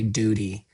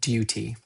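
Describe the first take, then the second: First: It begins with a plain 'doo' sound. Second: It begins with a gliding 'dyoo' sound. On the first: The speaker calls it wrong. "so we don't say duty" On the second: The speaker calls it right. "the English pronunciation ... with that liquid U"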